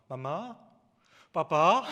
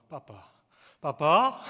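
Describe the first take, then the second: First: Put-on toddler babble rising to a loud squeal; imitating a toddler. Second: Put-on toddler babble, varied pitch. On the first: Father imitates his baby calling on the phone, loud playful babble. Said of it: "아이가 전화대고 주구장창 하는 말". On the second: Father shows how his baby's babble shifts in pitch, playful. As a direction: babble like a baby, changing only the pitch. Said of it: "높낮이만 조금씩 다르죠".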